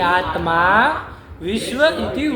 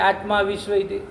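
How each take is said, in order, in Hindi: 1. आत्मा और विश्व के बीच विराम है। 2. आत्मा बिना रुके सीधे विश्व से जुड़ जाता है। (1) "ये आत्मा को इस साइड लीजिए।" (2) "आप आत्मा को उधर ले जाएंगे, ऐसे नहीं, अनर्थ हो जाएगा।"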